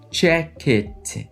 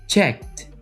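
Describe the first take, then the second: First: The ending is an extra syllable like it. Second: The ending is a short T sound. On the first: The speaker calls it wrong. "Tá vendo que eu não estou falando check it" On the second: The speaker calls it right. "terá som de T"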